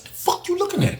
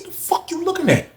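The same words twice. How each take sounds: First: High, hushed challenge; not yelling. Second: High but soft challenge; not even yelling. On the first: To the staring dude, a high, hushed challenge. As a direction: ask it quieter, almost hushed. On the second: To the staring dude, a high, soft, unyelled challenge. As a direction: confront him without raising the volume. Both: Retold or imitated. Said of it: "I ain't even yelling".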